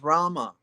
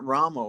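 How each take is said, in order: First: The name ends with an 'ah' vowel. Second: The name ends with an 'oh' vowel. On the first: The speaker calls it right. "no, it is Rama" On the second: The speaker calls it wrong. "you chant Ramo when an O. Prabhupada did not like that"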